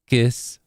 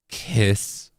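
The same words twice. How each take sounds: First: The K is said with little breath. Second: The K is said with a strong puff. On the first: "unaspirated is when it's not very breathy" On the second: "Aspirated is when it's like very like"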